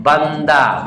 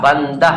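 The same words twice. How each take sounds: First: बंदा ending in an open aa, no h; final h as alif. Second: बंदा ending in an audible h, "bandah"; as it is written. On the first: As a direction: say बंदा with the last sound like alif, a plain aa. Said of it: "आवाज अलिफ की तरह होती है". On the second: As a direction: sound out the written h at the end of बंदा. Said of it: "बंदा लिखा है". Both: Shown as a demonstration.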